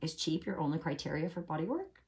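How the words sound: It sounds gentle and innocently curious. The asker sincerely wants to understand the reason. The speaker calls it right. "It's an innocent question"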